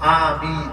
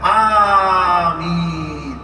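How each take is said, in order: First: The first vowel is held only briefly. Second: The first vowel is stretched very long. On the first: The speaker calls it right. "এক আলিফ টানতে হবে" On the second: The speaker calls it wrong. "চার আলিফ পাঁচ আলিফ টানে"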